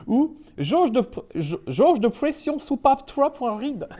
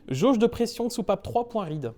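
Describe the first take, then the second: First: High, drawn-out mock English accent; hammed-up English accent on French. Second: Said in the usual way. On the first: Shown as a demonstration. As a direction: stumble slowly through French words with an English accent. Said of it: "j'essaye de prendre l'accent anglais". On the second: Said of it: "ne pas prendre d'accent anglais".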